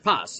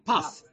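First: The word ends with an s sound. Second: The word ends with a th sound. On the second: "If you pronounce it Temani, it would be puff"

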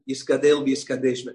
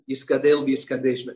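First: Ashkenazi pronunciation, with t sounds turned into s. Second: The same.

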